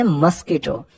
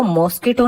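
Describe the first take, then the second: First: मस्कीटो said with a short "mus" and a long stressed "kee": mus-KEE-to; correct pronunciation. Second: मॉस्किटो said the wrong way, with an open "maw" first syllable and stress on it; wrong pronunciation. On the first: Teacher giving children the correct way to say mosquito, clearly. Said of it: "इसको हम बोलते हैं मस्कीटो". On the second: Teacher showing children the wrong way to say mosquito, as a demo. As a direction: say मॉस्किटो as the common mistake: MAWS-ki-to. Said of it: "इसको मॉस्किटो नहीं बोलते बच्चों". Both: Shown as a demonstration.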